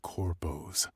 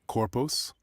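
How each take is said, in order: First: The word is said 'corpos', clipped from corporations. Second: The word is said like 'corpus', as in body. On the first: The speaker calls it right. "Like corpos, like it's short for corporations" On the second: The speaker calls it wrong. "Is that how I pronounce that?"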